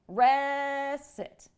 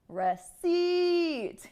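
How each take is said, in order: First: The stress is on the first syllable. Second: The stress is on the second syllable. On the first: The speaker calls it wrong. "this incorrect pronunciation is stressing the first syllable" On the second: The speaker calls it right. "the correct syllable stress would be stressing the second syllable"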